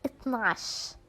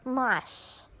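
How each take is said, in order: First: It is said in a shortened colloquial form. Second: The same.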